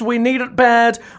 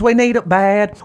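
First: It is read in a plain, neutral accent. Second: It is read in a Southern American accent.

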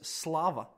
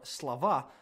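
First: The word is said with Latvian stress placement. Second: The word is said with Russian stress placement. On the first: "accents change between Latvian and Russian" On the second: "accents change between Latvian and Russian"

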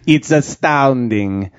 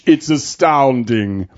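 First: It is said in a French accent. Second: It is said in a British accent. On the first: "Or should I sound French?" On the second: "or should I sound British?"

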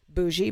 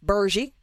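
First: The word is said without an R sound. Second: The word is said with an R sound.

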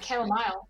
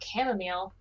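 First: It is said with a British pronunciation. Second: It is said with an American pronunciation. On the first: This is how British people say it. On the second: This is how the hosts say it.

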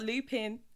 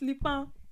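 First: It is said with a plain English pronunciation. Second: It is said with a French accent. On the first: The speaker calls it wrong. "It's not Lupin" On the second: The speaker calls it right. "You just need an accent"

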